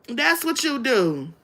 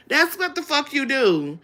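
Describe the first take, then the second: First: Slow and deliberate, leaning on that's; each word laid down slowly, that's on top; slow stressed line. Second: Said in the usual way. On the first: Shown as a demonstration.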